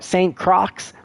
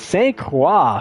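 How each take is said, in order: First: The name is said in an American accent. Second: The name is said in a non-American accent.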